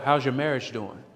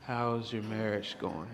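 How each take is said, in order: First: It is said in a normal voice. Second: It is said in a lowered voice.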